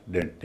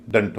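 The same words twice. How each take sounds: First: डेंट with a full "e" vowel; wrong pronunciation. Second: दंट with a short schwa; reduced syllable. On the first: Teacher showing what it is not, wrong pronunciation. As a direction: say डेंट as a clear "dent". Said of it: "डेंट नहीं होगा". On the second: Teacher giving the unstressed ending, reduced syllable. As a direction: say दंट as a light "dunt". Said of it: "डीईएनटी का यहाँ उच्चारण भी दंट होगा". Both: Shown as a demonstration.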